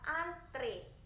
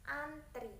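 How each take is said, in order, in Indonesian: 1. Vokal terakhirnya bunyi 'e'. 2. Vokal terakhirnya bunyi 'i'. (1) "yang benar itu adalah antre, pakai e" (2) "bukan antri"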